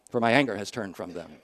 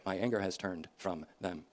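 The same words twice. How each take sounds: First: Said in the usual way. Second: Soft echo. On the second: Shown as a demonstration. Preacher echoing Hosea's verse, hushed and softer. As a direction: repeat the verse much softer, almost to yourself. Echoes the verse more softly.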